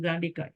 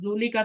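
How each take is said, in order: First: The first vowel is a long a. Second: The first vowel is a u sound. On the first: The speaker calls it right. "बल्कि खड़ी जबर आती है यहाँ पे" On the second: The speaker calls it wrong. "जूली का तो नहीं करेंगे"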